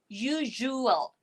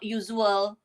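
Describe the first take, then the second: First: The middle consonant is a zh sound. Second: The middle consonant is a z sound. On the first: The speaker calls it right. "It should be usual" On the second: The speaker calls it wrong. "not usual. Some of you will use the z sound"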